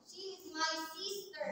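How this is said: The stress is on sister.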